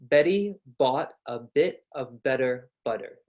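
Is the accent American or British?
American. It has an American accent with soft d-like Ts.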